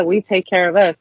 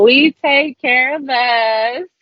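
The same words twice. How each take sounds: First: Said in the usual way. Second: "we take care of us" drawn out slowly and pitched high; emphatic slogan. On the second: Shown as a demonstration. Activist putting emphasis on the group's slogan, "we take care of us" slow and emphatic. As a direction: stretch out every word of "we take care of us", lifting the pitch. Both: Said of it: "put some emphasis on there".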